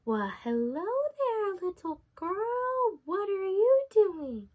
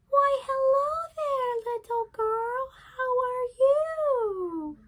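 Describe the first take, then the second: First: A lightly voiced wolf, slow and sweet; sly wolf voice. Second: High, slow put-on granny voice; a wolf squeaking like a sweet old granny; wolf faking grandmother. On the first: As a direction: coax her along like a sly wolf, slowly. Wolf greets a girl in forest. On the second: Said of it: "disguise himself as the grandmother".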